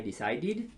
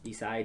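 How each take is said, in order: First: "Decided" with a clear final "id", rising; decided demo. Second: Said in the usual way. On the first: Shown as a demonstration. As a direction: add "id" to the end of "Decided". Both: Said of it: "Vamos a ver cómo se pronuncia".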